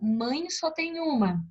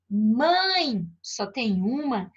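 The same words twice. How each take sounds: First: It is said without a pause after mãe. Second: It is said with a pause after mãe.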